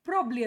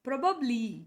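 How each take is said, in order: First: One middle syllable is dropped, sounding like probly. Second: All three syllables are said in full. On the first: The speaker calls it wrong. "ಪ್ರಾಬ್ಲಿ ಪ್ರಾಬ್ಲಿ ಅಂತಾರೆ. ಇವೆರಡು ತಪ್ಪು" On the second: The speaker calls it right. "ಈ ಸ್ಪೆಲ್ಲಿಂಗನ್ನು ಹಿಂಗೆ ಹೇಳಬೇಕು"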